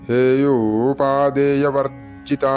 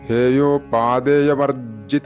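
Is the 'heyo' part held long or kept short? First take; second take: long; short. First: The 'heyo' part is held long before 'u'. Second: The 'heyo' part is short, blurring the 'u'. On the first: The speaker calls it right. "ഹേയോ എന്ന് നീട്ടിക്കഴിഞ്ഞാൽ ഉ എന്നുള്ളത് കറക്റ്റായിട്ട് വരും" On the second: The speaker calls it wrong. "ഇങ്ങനെയാണ് ജപിച്ചു പോകാറുള്ളത്"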